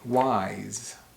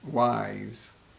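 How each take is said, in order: Both takes have the same delivery.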